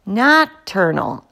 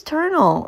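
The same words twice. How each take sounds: First: "Nocturnal" slowly, with its first syllable; corrected word. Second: "ternal" without its first syllable; clipped word error. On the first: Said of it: "I squeaked". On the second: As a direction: say "ternal", dropping the "noc". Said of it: "you mean nocturnal". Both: A narrator's reading.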